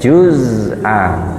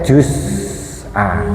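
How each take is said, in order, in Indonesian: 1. Konsonannya bunyi z bersuara. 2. Konsonannya bunyi s tak bersuara. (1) "menggunakan zai" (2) "jangan menggunakan es"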